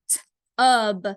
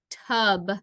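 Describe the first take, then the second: First: Tub broken as t-ub; crisp t, a gap, then ub; sounded out. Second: Said in the usual way. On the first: Shown as a demonstration. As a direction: split t-ub to show the short u. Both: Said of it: "same vowel sound that you hear".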